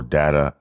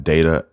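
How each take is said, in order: First: Data said as DAT-uh; first syllable of Data like "dat"; short-A Data. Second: Data said as DAY-tuh; first syllable of Data rhymes with "day"; long-A Data. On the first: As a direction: say Data with the first vowel as in "dad". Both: Shown as a demonstration. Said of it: "I don't know which one it is".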